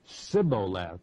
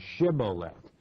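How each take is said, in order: First: The word begins with a plain S sound. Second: The word begins with an SH sound. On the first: The speaker is marked as an Ephraimite. The speaker calls it wrong. "they would say Sibboleth" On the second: The speaker is not marked as an Ephraimite. The speaker calls it right. "rather than Shibboleth"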